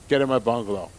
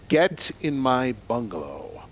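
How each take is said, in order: First: It is said in a casual, ordinary voice. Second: It is said in a commanding, authoritative voice.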